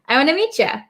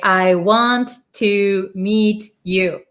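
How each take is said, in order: First: The last word is reduced to 'ya'. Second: The last word is a full 'you'. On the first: It sounds like everyday American speech. "most Americans don't talk like this, right? We say" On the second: It sounds like textbook speech. "If you talk like a textbook"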